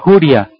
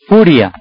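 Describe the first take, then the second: First: The word begins with a different sound. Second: The word begins with a clear F sound. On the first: The speaker calls it wrong. "es que tengo mucha juria, no" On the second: The speaker calls it right. "es furia"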